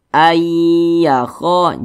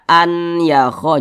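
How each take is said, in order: First: The n merges into a doubled y sound. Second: The n is pronounced separately before the y. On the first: The speaker calls it right. "dibaca ayyakho" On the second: The speaker calls it wrong. "jangan dibaca an yakho"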